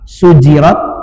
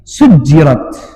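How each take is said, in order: First: The middle consonant is short and single. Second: The middle consonant is held long and doubled. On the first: "bisa dibaca takhfif sujirat" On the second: "bisa dibaca tasdid sujirat"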